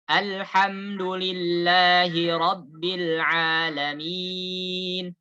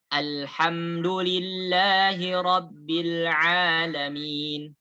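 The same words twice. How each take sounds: First: The last long vowel is held four beats. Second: The last long vowel is held two beats.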